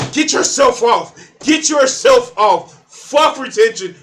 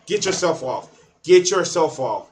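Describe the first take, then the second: First: Much higher, loud, slow yell; shouted. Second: Said in the usual way. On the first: Acted. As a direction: bellow it like a rally chant. Shouted advice, then repeated plainly.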